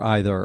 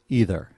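First: "either" starting with an eye sound; EYE-ther pronunciation. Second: "either" starting with a long ee; EE-ther pronunciation. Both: Shown as a demonstration. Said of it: "two ways to say".

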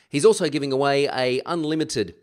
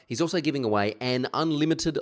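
First: "a unlimited", with a bare "a" before the vowel; grammatical slip. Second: "an unlimited", the n linking into the vowel; corrected article. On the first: Podcast host fluffing the giveaway announcement, grammatical slip. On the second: Podcast host redoing the giveaway announcement, corrected article. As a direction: say "an" with its n before "unlimited". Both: Real, not acted. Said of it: "I'll get my English right".

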